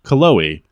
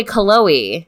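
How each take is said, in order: First: Cullowhee said as it is read; read pronunciation. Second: Put-on Cullowhee said the old way, stress on the first syllable; old pronunciation. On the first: Host says the town name the way she reads it. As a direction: sound out Cullowhee from the spelling. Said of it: "that's how I would read it". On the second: Friend asks how she used to say the town name, old pronunciation. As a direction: say Cullowhee as she did before moving. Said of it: "how did you say Cullowhee before you moved there". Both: Shown as a demonstration.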